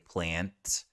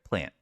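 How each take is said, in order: First: The final T is released with air. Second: The final T is stopped without release. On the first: "They won't say plant a lot of the time" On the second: "You'll hear us just kind of stop the air"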